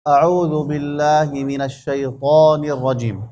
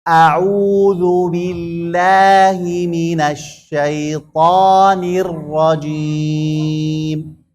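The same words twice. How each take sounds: First: The lips barely move, so the vowels blur. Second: The lips move fully, so every vowel sounds distinct. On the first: The speaker calls it wrong. "لن يكون هناك حركات كثيرة في الشفتين" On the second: The speaker calls it right. "القراءة الصحيحة هكذا"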